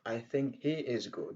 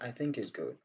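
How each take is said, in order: First: The h sound in 'he' is clearly pronounced. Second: The h sound in 'he' is dropped entirely. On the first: "Au lieu de dire" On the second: "on dit"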